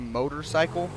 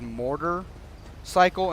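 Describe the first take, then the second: First: The first part sounds like 'motor'. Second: The first part sounds like 'mortar'. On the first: "instead of motorcycle" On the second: "I pronounce it as mortar cycle"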